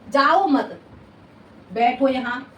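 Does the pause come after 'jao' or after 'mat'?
after mat. The pause comes after the word 'mat'. The listener is told not to go and to sit here. "उसने तो कहा जाओ मत, बैठो यहां"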